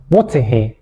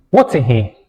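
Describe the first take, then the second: No difference in how they are said.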